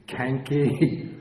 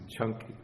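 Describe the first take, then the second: First: The name begins with a hard k sound. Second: The name begins with a ch sound. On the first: The speaker calls it wrong. "You think it might be Kanki" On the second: The speaker calls it right. "always pronounced like C H, like ch in church"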